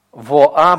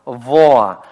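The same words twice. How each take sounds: First: "Во, а" split into two distinct syllables; wrong reading of "Во, а", vowels kept apart; two separate syllables. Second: "Воа" glided as one syllable, louder; right reading of "Воа", one unbroken diphthong. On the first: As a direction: say "Во, а" with a break before the "а". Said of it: "мы никогда не произнесём". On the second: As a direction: let the "о" of "Воа" slide straight into "а". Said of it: "исключительно как дифтонг". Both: Shown as a demonstration.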